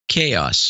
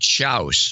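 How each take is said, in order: First: The word sounds like 'kay-oss', with two syllables. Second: The word sounds like 'chouse', rhyming with house. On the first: The speaker calls it right. "instead of" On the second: The speaker calls it wrong. "When I was a kid, I would say chouse"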